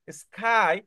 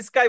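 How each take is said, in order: First: স্কাই as "iskhai", with a puff of air on the k; recording's pronunciation. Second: স্কাই as "iskai", with an unaspirated k; habitual local pronunciation. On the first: Teacher modelling the recording for students, স্কাই with breathy-released "kh". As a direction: say স্কাই with an aspirated kh. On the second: Teacher showing students their habit, স্কাই as plain-k "iskai". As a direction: say স্কাই with a hard k and no puff of air. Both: Shown as a demonstration. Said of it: "এই যে আমরা স্কাই বলে অভ্যাস".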